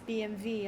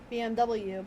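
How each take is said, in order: First: The last letter is said as vee. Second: The last letter is said as double-u. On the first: The speaker calls it right. "the correct pronunciation is B M V" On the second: The speaker calls it wrong. "People pronounce it as B M W"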